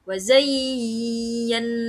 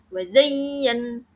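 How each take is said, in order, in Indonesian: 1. Huruf y yang bertasydid dibaca panjang. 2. Huruf y yang bertasydid ditekan tapi pendek. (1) "tidak wa zayyan. Nah, itu kurang tepat" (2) "tapi tetap ditekan ya, tapi tidak ditekan lama"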